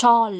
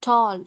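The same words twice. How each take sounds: The two takes are said the same way.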